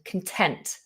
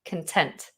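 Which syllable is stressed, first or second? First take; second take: second; second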